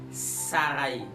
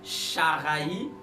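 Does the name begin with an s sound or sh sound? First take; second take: s; sh. First: The name begins with an s sound. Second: The name begins with an sh sound. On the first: The speaker calls it right. "on va dire saraï" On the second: The speaker calls it wrong. "au lieu de dire charaï"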